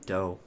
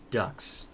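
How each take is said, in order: First: The word ends with a long vowel. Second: The word ends with a k-s sound. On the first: "But I always want to pronounce it, um, dough" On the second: "I actually think it's ducks"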